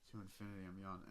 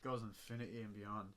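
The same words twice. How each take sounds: First: To infinity and beyond, said correctly as Buzz; corrected catchphrase. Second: Goes infinity and beyond, botched Buzz line; tossing off the Buzz line wrong; misquoted catchphrase. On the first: Shown as a demonstration. Correcting the Buzz Lightyear quote. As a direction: put the catchphrase right. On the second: Retold or imitated. Quoting Buzz Lightyear's catchphrase wrong.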